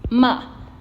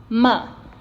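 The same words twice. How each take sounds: Both takes have the same delivery.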